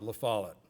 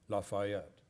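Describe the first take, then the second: First: The name is said as La Follette. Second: The name is said as Lafayette. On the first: The speaker calls it right. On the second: The speaker calls it wrong.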